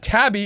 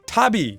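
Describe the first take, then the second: First: The word is said with an Americanized pronunciation. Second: The word is said without an Americanized pronunciation. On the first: The speaker calls it wrong. "It's not tabby" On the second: The speaker calls it right. "it's tabby"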